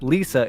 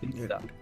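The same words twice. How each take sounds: First: It starts with an English L sound. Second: It starts with a sound between L and R. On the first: The speaker calls it wrong. "it's not Lisa" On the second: The speaker calls it right. "the Japanese R is between the English L and the English R"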